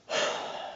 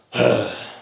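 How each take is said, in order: First: Soft, voiceless sigh; regular sigh. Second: Deeper, raspy sigh. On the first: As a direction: breathe out a plain, quiet sigh. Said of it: "regular sigh". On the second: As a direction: sigh deeply with a rasp in it. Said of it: "and then a deeper sigh". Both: Shown as a demonstration.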